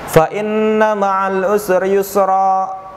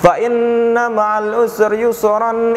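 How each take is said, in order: First: The last word ends in a long vowel, then a stop. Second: The last word ends in an n, running straight on. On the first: The reader stops at the end of the verse. "ini yang dibaca secara mad iwad" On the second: The reader goes on without stopping at the verse end. "Yang satunya"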